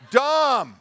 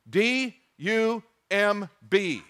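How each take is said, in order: First: Said in the usual way. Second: D U M B, each letter spelled slowly; D U M B spelled out for a laugh. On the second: Shown as a demonstration.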